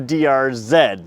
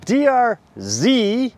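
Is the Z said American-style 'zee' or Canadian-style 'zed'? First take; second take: Canadian zed; American zee. First: The Z is said the Canadian way, 'zed'. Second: The Z is said the American way, 'zee'.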